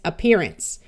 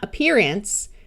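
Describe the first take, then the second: First: The last syllable has a reduced schwa vowel. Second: The last syllable has a full, clear vowel. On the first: The speaker calls it right. "The vowel in this suffix will usually schwa" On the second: The speaker calls it wrong. "So it's not appearance"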